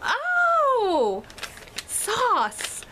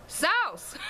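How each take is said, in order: First: High, drawn-out mock "oh" of understanding; exaggerated high "ohhh" as it clicks; sudden realization. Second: High-pitched imitated Southern "sauce", like "sowss"; mock Southern "sauce" with a gliding vowel; Southern accent. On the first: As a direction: act out finally getting it, pitched way up. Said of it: "I was like". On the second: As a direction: mimic a thick Southern "SOWSS". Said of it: "Like that, that was what they did".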